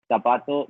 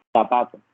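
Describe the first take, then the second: First: Zapato with a plain S sound, Colombian style; Colombian pronunciation. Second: Zapato with the z lisped as th, Spain style; Spain Spanish pronunciation. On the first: Teacher models zapato with a Colombian S. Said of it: "si yo digo ... desde el español colombiano". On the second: Teacher contrasts zapato with a Spanish th sound. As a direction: say zapato with the tongue between the teeth. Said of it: "desde el español de España". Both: Shown as a demonstration.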